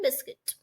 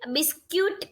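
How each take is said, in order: First: The second syllable has a short 'i' sound. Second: The second syllable has a 'yoo' sound. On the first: The speaker calls it right. "Right pronunciation" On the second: The speaker calls it wrong. "બિસ્ક્યુટ કહે છે લોકો પણ એ wrong છે"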